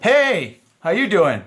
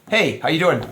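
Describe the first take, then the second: First: It is said in a put-on player voice. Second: It is said in a natural, ordinary voice.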